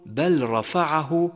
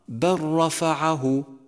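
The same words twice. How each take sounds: First: The l is pronounced clearly before the r. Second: The l is merged fully into the r. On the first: The speaker calls it wrong. "وخطأ أن تقول بل رفعه" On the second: The speaker calls it right. "فلا بد من الإدغام"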